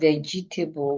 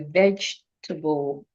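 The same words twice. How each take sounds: First: Each letter E is pronounced as a vowel. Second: The E sounds are dropped, with fewer syllables. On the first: The speaker calls it wrong. "Instead of vegetable" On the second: The speaker calls it right. "we say vegetable. The two E's in the word are silent"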